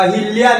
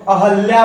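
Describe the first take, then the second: First: अहिल्या with an "i" after the h; rejected pronunciation. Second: अहल्या with an "a" after the h; corrected pronunciation. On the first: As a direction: say अहिल्या as "a-hil-ya". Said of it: "वो अहिल्या नहीं होता". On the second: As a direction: say अहल्या as "a-hal-ya". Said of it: "अहल्या होता है". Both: Shown as a demonstration.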